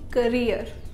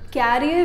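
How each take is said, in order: First: The first vowel is short and weak, like 'kuh'. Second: The first vowel is open, like 'cat'. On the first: The speaker calls it right. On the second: The speaker calls it wrong. "कैरियर नहीं"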